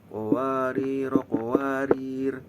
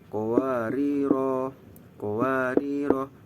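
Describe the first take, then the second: First: It is read joined, with a vowel dropped. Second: It is read as if stopping, vowels kept.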